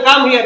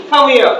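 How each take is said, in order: First: "Come here" with both words full; learner pronunciation. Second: "Come here" fused to kamia, h dropped; fast native linking. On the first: Teacher shows how we say it, full "Come here". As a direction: keep "Come here" apart, h sounded. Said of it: "আমরা বলি না". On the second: Teacher shows speedy English, fused "Come here". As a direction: run "Come here" into one loud word. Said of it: "speedy প্রনাউন্সিয়েশনের কারণে". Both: Shown as a demonstration.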